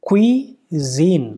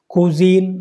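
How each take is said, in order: First: The first syllable sounds like kwee. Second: The first syllable sounds like koo. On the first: The speaker calls it right. "इसका correct pronunciation क्या है?" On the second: The speaker calls it wrong. "तो फिर गलत हो जाएगा"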